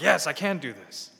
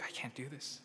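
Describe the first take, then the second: First: Loud, sure "Yes, I can do this"; cocky confidence. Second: Soft, defeated "I can't do this"; meek inadequacy. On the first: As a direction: say "Yes, I can do this" boldly and proudly. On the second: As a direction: say "I can't do this" small and beaten. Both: Acted.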